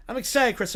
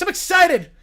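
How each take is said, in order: First: Said in the usual way. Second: Loud, high burst of sports excitement; excited football voice. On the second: Acted. Showing off the football voice, loud and excited. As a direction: announce it like a pumped-up football guy. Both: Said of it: "This is just my football voice".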